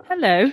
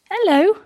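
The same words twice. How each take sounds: First: Said in the usual way. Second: Hello. pitched high and louder with a rising sing-song; pet talk. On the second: Real, not acted. Farm vlogger greets the dog again in a high, cooing pet voice.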